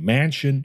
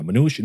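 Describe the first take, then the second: First: Manchin said right, MAN-chin, first syllable like man; the fixed name "Manchin" after the slip; corrected name. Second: Mnuchin said by mistake, as the Treasury secretary's name, MNOO-chin; blurting "Mnuchin" before catching the error; slip of the name. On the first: Correcting himself to the senator's name, Manchin. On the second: Listing senators, first says Mnuchin by mistake. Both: Real, not acted. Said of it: "not Mnuchin".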